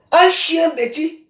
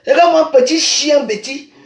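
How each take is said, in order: First: Slow contemptuous repeat; slow mocking drawl. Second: Said in the usual way. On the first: Real, not acted. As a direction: stretch out chien bêtis slowly and with scorn. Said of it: "slow drawn-out repeat". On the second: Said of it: "repeats it slowly".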